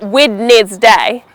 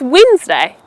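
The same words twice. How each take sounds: First: The word is said with three syllables. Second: The word is said with two syllables. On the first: The speaker calls it wrong. "not Wednesday" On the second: The speaker calls it right. "It's just two syllables"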